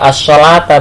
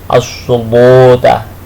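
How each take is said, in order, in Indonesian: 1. Bunyi L itu tipis dan ringan. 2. Bunyi L itu tebal dan berat. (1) "Gak as-sholata bacanya" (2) "dengan tebal"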